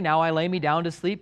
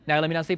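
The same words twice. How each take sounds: First: It is said at a normal, steady pace. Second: It is rattled off very quickly.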